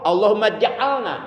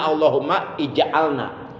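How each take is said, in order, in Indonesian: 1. Vokal sebelum ja'alna dihilangkan, kedua kata disambung. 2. Vokal sebelum ja'alna dilafalkan sebagai 'ij'. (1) "Kalau di wasol" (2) "asalnya tulisannya"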